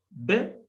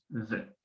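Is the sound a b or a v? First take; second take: b; v. First: It is a hard b sound. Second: It is a soft v sound. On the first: The letter carries a dagesh. "vet con dagesh" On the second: The letter has no dagesh. "vet sin dagesh"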